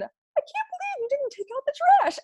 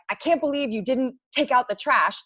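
First: It is said in a squeaky Minnie Mouse voice. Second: It is said in an angry, normal voice.

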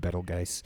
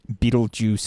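First: The name is pronounced a non-American way. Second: The name is pronounced the American way. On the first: "I prefer Betelgeuse" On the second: "as the Americans say"

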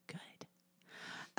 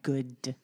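First: It is said quietly. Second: It is said loudly.

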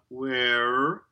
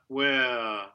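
First: It ends with a pronounced R sound. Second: It ends with a schwa instead of R. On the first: The speaker calls it wrong. "We don't have the rhotic schwa there, no er, so not where" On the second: The speaker calls it right. "that R reduces to schwa and creates a diphthong"

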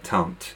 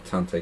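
First: The word is said with a French pronunciation. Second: The word is said with a non-French pronunciation. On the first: The speaker calls it right. "So Tante, yes, good" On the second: The speaker calls it wrong. "Are we not going with the French pronunciation of auntie"

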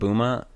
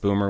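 First: The word ends in an open 'ah' sound. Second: The word ends in a hard R sound. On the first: It is a friendly term. The speaker calls it right. "like booma?" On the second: It is an offensive term. The speaker calls it wrong. "with the hard R"

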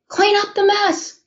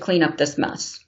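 First: The voice is loud, like shouting in anger. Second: The voice is calm and not raised. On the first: The demand is finally meant seriously. "I totally lose it" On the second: The demand is not meant seriously yet. "Her voice isn't raised"

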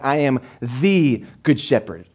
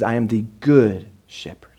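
First: The stress is on the word the. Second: The stress is on the word good.

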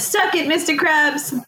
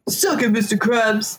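First: It is said in a high-pitched voice. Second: It is said in a normal voice.

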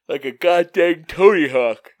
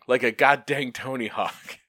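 First: It is said while yawning. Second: It is said clearly without a yawn.

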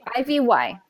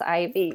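First: The name is spelled out letter by letter. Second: The name is said as one ordinary word. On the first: A small child answers by spelling her name. "Instead of saying Ivy, she would spell it" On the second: The name is given the usual way. "it's Ivy"

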